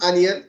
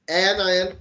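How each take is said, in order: First: The word starts with an 'on' sound. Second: The word starts with an 'an' sound. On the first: The speaker calls it wrong. "it's not onion" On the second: The speaker calls it right. "it's anion, an"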